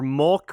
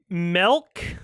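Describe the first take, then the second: First: The word is said with an O-like vowel. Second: The word is said with an E-like vowel. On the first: "with an O" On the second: "with an E"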